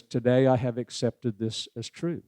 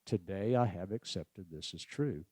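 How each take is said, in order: First: Said in the usual way. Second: "Today I have accepted this as true." said much softer and lower; quiet ten count. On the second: Shown as a demonstration. Speaker repeating the second verse softly in ten count. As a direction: let the verse fall to a hush. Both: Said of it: "Another ten count".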